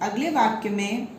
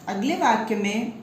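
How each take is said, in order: No difference in how they are said.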